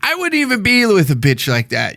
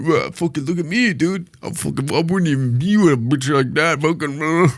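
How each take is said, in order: First: Said in the usual way. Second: Put-on voice of a blustering braggart; mock your own tough talk; mocking big talker. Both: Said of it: "I'm talking like a big game".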